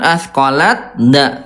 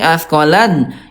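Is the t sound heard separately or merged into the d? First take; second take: separate; merged. First: The t is sounded separately before the d. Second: The t is fully merged into the d. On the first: The speaker calls it wrong. "bukan askolat da" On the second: The speaker calls it right. "tapi askolan"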